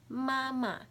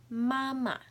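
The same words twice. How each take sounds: No difference in how they are said.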